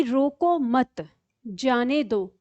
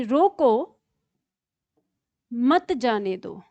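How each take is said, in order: First: Slow "रोको मत", a pause, then "जाने दो"; pause after मत. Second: "रोको" alone, long pause, then "मत जाने दो"; pause after रोको. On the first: Teacher shows the let-go meaning, pause after मत. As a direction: join मत to रोको and break before जाने. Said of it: "इसका भाव हुआ छोड़ दो". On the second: Teacher shows the misplaced comma, pause after रोको. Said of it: "विराम चिन्ह का प्रयोग ही यहाँ पे गलत". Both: Shown as a demonstration.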